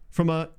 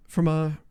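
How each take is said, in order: Both takes have the same delivery.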